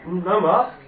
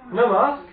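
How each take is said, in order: First: Loud, higher, incredulous echo; startled disbelief. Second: Much higher and louder, near a cry; rising disbelief. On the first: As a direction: throw the words back in shock. Queen reacts in disbelief. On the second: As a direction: push the disbelief to its peak. Disbelief rises further. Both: Acted.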